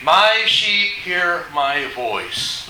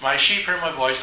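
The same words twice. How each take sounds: First: "My sheep hear my voice" drawn out word by word; emphatic verse reading. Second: Said in the usual way. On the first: Acted. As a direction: stretch MY and weigh every word of "My sheep hear my voice". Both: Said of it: "emphasis on the word of God".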